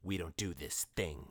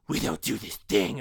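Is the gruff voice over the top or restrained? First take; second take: restrained; over the top. First: A gruff voice that stays controlled and clear. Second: A gruff voice pushed hard and exaggerated. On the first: The character voice still sounds like a real person. The speaker calls it right. "he's still doing his Rorschach, I did a bad impression" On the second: The character voice sounds silly and overdone. The speaker calls it wrong. "it doesn't sound so forceful and so over the top"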